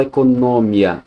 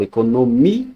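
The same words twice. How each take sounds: First: Economia run together with stress on NO and a gliding final "mia"; wrong syllable split. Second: Economia with a long stressed MI, then a detached A; stressed separate MI-A. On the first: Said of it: "Eu não falo economia". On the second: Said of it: "eu falo economia". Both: Shown as a demonstration.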